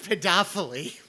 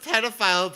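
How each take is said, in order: First: The word ends with an extra ee syllable. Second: The word ends without an extra vowel syllable. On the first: The speaker calls it wrong. "pronounced pedophily" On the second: The speaker calls it right. "I've never heard pedophile pronounced"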